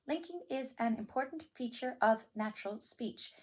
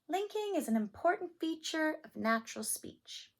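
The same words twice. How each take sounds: First: Each word is separated by small breaks. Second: The words run smoothly together without breaks. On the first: "you can speak it with no linking" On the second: "Or you can speak it with linking"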